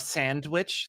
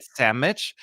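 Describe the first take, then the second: First: Said in the usual way. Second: Sandwich said as "sammich", no d; imitating a Southern "sammich" for sandwich. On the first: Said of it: "instead of sandwich". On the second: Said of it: "they said sandwich".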